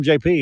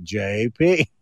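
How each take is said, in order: First: Said in the usual way. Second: Low, deliberate "J P"; mock spelling out. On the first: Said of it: "you're like, Oh, I'm J P". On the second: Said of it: "How do you spell that".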